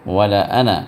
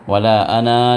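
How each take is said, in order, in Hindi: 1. 'ana' का आख़िरी स्वर छोटा रखा जाता है। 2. 'ana' का आख़िरी स्वर लंबा खींचा जाता है। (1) "गोया जो है वो अलिफ साइलेंट है" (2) "वला अना नहीं पढ़ेंगे"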